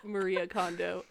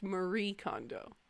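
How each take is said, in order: First: Maria said in three syllables, ending "-ee-uh"; Maria pronunciation. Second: Marie in two syllables, ending on "ee"; Marie, stopping at the "ee"; Marie pronunciation. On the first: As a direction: sound out Maria with an extra final "uh". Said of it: "It's not pronounced". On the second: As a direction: say Marie with no final "uh". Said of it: "It's pronounced". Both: Retold or imitated.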